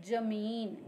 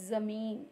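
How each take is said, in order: Both takes have the same delivery.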